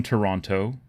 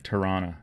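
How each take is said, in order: First: "Toronto" with the second T sounded; full second T. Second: "Tirana" as local Toronto, second T gone; dropped second T. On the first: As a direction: say "Toronto" as to-RON-toe, both Ts clear. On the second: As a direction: say "Tirana" like tuh-RAH-nuh, lazy-tongued Toronto. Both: Shown as a demonstration. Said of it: "you always drop the second T".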